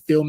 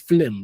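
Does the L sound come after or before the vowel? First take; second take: after; before. First: The L sound comes after the vowel. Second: The L sound comes before the vowel. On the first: This is the standard way of saying it. "They don't say film" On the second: This is how many Caribbean people say it. "they say flim"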